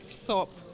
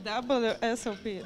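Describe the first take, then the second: First: It is said as one word, 'vsop'. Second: It is said the English way, not 'vsop'. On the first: The speaker calls it wrong. "Почему вы все говорите в СОП?" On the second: The speaker calls it right. "А как надо говорить?"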